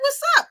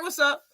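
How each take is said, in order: First: "What's up?" snapped high and loud; angry what's up. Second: Said in the usual way. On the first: Retold or imitated. Someone ignored on greeting, now confrontational. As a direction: fire the greeting back after being ignored. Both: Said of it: "And they be like".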